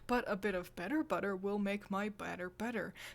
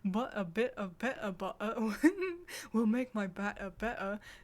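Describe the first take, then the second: First: The middle T sounds are clearly pronounced. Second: The middle T sounds are dropped, Cockney-style.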